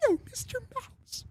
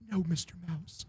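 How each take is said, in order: First: Very high, soft, meek squeak. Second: Soft, meek reply. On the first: Second cowed band member answers [name], high soft voice. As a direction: echo it meekly in a tiny falsetto. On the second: Cowed band member answers [name], soft meek voice. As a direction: answer meekly, under your voice. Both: Acted. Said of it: "the fucking Jonas Brothers say something".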